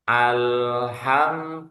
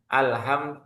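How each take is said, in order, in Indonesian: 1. Huruf 'l' ditahan sebentar sebelum lanjut. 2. Huruf 'l' diucapkan cepat tanpa ditahan sama sekali. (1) "Jadi ditahan sedikit" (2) "jangan alham, jangan buru-buru"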